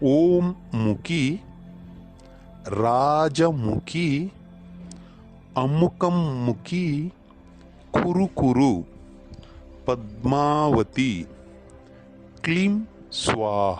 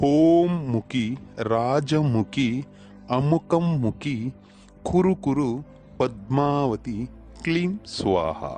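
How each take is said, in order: First: The phrase is said at a slower pace. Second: The phrase is said at a quicker pace.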